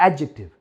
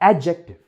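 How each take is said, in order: Both takes have the same delivery.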